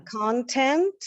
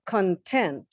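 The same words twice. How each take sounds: First: "Content" as CONtent, rising; stress on first syllable. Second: "content" as conTENT, falling; stress on second syllable. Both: Shown as a demonstration. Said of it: "stressing a different syllable".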